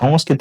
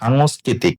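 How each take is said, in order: First: The first syllable has a short 'o' vowel. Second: The first syllable has a long 'a' vowel. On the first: The speaker calls it wrong. "এই সংস্কৃতি বলে বাংলাতে কোনো শব্দ নাই" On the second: The speaker calls it right. "হবে সাংস্কৃতিক"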